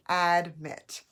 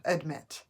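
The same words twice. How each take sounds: First: "admit" with a full short a, AD-MIT; clear vowel sound. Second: "admit" run together, weak first vowel like uhd-MIT; said quickly. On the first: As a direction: punch out both syllables of "admit", opening AD clearly. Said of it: "So, but it's admit". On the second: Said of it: "when you say it quickly". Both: Shown as a demonstration.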